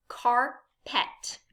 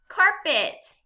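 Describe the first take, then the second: First: CARPET as car, pause, pet; two separate beats in CARPET; syllable by syllable. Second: Said in the usual way. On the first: Shown as a demonstration. Teacher gives learners a word to blend, CARPET syllable by syllable. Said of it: "say some words in parts". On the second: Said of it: "What word do we have?".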